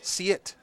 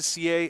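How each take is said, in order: First: The name is said with a final T sound. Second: The name is said without a final T sound. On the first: This is how the person himself says his name. The speaker calls it right. "The the H is, is a T sound" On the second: This is an earlier way the name was said. The speaker calls it wrong. "then back to C A"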